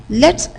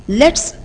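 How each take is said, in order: Both takes have the same delivery.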